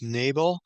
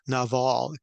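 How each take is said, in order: First: The name is said the familiar anglicized way. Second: The name is said with its Hebrew pronunciation. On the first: "You probably have heard it as Nabal" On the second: "the Hebrew pronunciation is"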